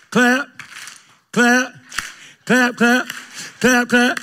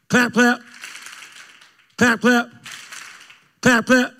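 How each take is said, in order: Both takes have the same delivery.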